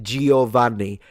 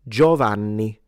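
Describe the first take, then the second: First: The i after the G is pronounced. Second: The i after the G is silent. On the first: The speaker calls it wrong. "you all mispronounce. Don't lie to me, because you all say Giovanni" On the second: The speaker calls it right. "The I is not pronounced. It's Gio"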